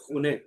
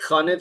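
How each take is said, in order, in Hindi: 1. पहला स्वर गोल होठों वाला 'u' जैसा है। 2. पहला स्वर खुला 'a' जैसा है। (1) "क्या हो गया खूने कॉज क्लोकियल में" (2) "खाने था असल में"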